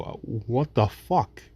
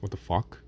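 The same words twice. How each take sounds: First: Drawn-out, fed-up what the fuck; slow exasperation. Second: A soft, stunned what the fuck; hurt, quiet disbelief. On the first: Cut again, victim slowly asks the abuser, exasperated. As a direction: stretch it out, worn down by the cuts. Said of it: "And you go". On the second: Cut victim asks the one who hurt him, quietly stunned. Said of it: "and you say". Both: Retold or imitated.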